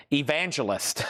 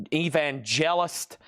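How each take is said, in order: First: Said in the usual way. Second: "evangelist" stretched out slowly, each syllable drawn long; slow odd pronunciation. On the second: Shown as a demonstration. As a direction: linger on "evangelist" as if savouring it. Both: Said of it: "I don't know why I'm saying it like that".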